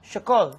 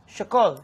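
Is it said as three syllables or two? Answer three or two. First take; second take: two; two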